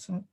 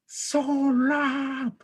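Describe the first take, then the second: First: It is said in a soft, gentle voice. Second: It is said in a loud, raised voice. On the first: It invites kindly, as a fasting person should speak. The speaker calls it right. "Ngomongnya lembut aja" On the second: It scolds harshly, which is not allowed while fasting. The speaker calls it wrong. "Gak boleh"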